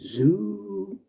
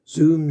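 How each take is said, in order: First: The word is said slowly and drawn out. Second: The word is said quickly. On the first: The speaker calls it right. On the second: The speaker calls it wrong.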